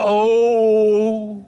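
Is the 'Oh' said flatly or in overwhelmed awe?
in awe. It is said in overwhelmed awe.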